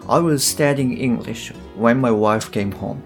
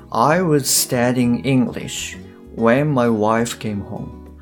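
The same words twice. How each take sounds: First: The sentence is said fast. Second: The sentence is said slowly.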